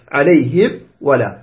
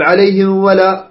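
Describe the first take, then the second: First: Slower, lower "عليهم", then a separate "ولا"; clear meem. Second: "عليهم" slid straight into a held "ولا"; mistaken run-on meem. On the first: Teacher corrects the wrong readings, clear meem. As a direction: close the meem of "عليهم" fully before the waw. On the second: Teacher shows what not to say, blurred meem. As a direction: blur the meem of "عليهم" into the waw. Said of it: "لا تقل". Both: Shown as a demonstration.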